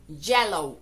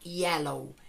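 First: The word begins with a j-like sound. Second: The word begins with a y glide sound. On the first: The speaker calls it wrong. "lo cual no es correcto" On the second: The speaker calls it right. "la Y en este caso suena como una I, de modo que la forma correcta sería yellow"

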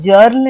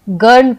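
First: The word begins with a j sound. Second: The word begins with a g sound. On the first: The speaker calls it wrong. "हम इसे जर्ल नहीं पढ़ते" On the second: The speaker calls it right. "हम इसे गर्ल पढ़ते हैं"

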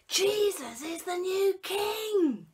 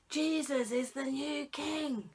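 First: It is spoken louder still, the loudest version. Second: It is spoken a little louder than before. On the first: "A bit louder" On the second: "A bit louder"

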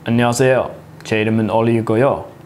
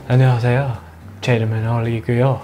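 First: It sounds stiff and formal. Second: It sounds relaxed and comfortable.

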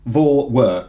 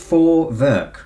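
First: The word begins with a V sound. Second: The word begins with an F sound. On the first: The speaker calls it wrong. "I just want to say Vorwerk" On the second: The speaker calls it right. "but it's Vorwerk"

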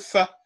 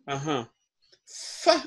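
First: The syllable is said on a mid tone. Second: The syllable is said on a raised tone. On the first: This is its normal tone when said alone. "Normalement, ça devait être fa" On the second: A preceding rising tone has pushed it up. "pourquoi ça n'a pas gardé son ton moyen"

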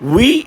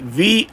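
First: It begins with an 'oo' vowel sound. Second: It begins with a 'v' sound. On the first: The speaker calls it wrong. "ఉయ్ అని చదవకండి" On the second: The speaker calls it right. "వి అని చదవండి"

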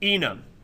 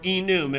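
First: It is not pronounced like the start of 'enumerated'. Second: It is pronounced like the start of 'enumerated'.

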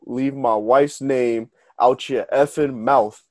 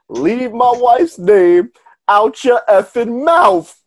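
First: It is said at a normal, quieter volume. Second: It is said louder, proudly, with force.

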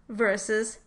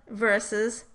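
The two takes are said the same way.

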